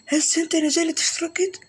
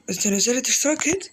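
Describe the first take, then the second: First: Insistent high question. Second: Said in the usual way. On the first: Real, not acted. Gamer pressing a viewer to subscribe, insistently. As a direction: pitch jumps up on هيد, pressing the viewer.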